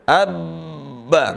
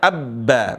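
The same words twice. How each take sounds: First: The doubled consonant is held long. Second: The doubled consonant is held short. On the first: The speaker calls it wrong. "enggak boleh dibaca abba, enggak boleh" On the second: The speaker calls it right. "Contohnya abba"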